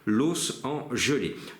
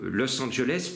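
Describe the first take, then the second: First: The city name is deformed into French words. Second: The city name is said in its usual form.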